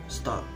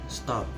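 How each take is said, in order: No difference in how they are said.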